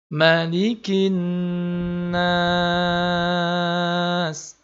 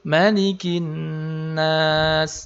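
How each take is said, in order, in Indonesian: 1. Vokal dalam 'nas' ditahan sangat panjang. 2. Vokal dalam 'nas' ditahan sebentar. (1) "tiga alif atau enam harokat" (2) "panjangnya boleh satu alif"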